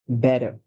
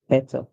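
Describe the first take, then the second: First: The middle consonant sounds like a soft d. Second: The middle consonant is a clear t sound. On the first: "Americans called t, a lot of the times they use the d sound" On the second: "While the British would say better"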